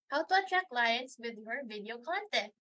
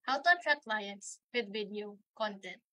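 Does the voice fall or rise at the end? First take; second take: rise; fall. First: The pitch rises at the end of the sentence. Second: The pitch falls at the end of the sentence. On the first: The speaker seems friendly or is asking a question. "Medyo pataas siya at the end of the sentence" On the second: The speaker seems confident, credible and authoritative. "Di ba pababa siya?"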